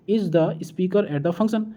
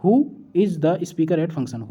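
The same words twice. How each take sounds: First: Teacher slowly reads the gapped question to students, slow and rising; slow sentence reading. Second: Who said first and leaned on, read out slowly; slow read with the word who stressed, falling at the end. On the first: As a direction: read out slowly, word by word with a rising end. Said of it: "सही प्रश्न शब्द भरें इसमें". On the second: Teacher reads the completed answer aloud, stressing who. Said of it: "तो इसमें क्या". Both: Shown as a demonstration.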